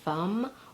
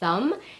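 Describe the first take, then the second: First: The word begins with an F sound. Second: The word begins with a TH sound. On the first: The speaker calls it wrong. "gets mispronounced as an F" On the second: The speaker calls it right. "I mean the sound, as in the word thumb"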